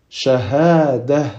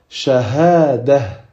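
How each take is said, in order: First: The ending is pronounced with an h sound. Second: The ending is pronounced with an h sound.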